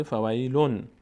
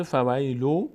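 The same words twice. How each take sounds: First: "فویلون" closed with a clear still n; final n sounded. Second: "فویلو" ending on open long oo; original form without n. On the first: Teacher showing the hidden nun, "فویلون" ending in n. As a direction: add an n sound to end "فویلون". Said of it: "یک نون ساکن هم آخرش بوده". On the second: Teacher showing the underlying word, "فویلو" left open. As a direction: say "فویلو" with no n at the end. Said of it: "در اصل بوده". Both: Shown as a demonstration.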